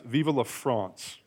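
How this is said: It is said with a French accent.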